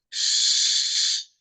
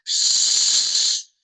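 First: The shushing sound is louder than before. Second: The shushing sound is at its loudest. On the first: "А давайте тепер голосніше" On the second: "А давайте тепер ще голосніше"

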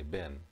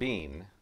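First: The vowel is short, like in 'pen'. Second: The vowel is long, like in 'seen'. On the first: This is how people locally say it. "down here we say Ben" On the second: This is how British speakers say it. "The British accent would be Bean"

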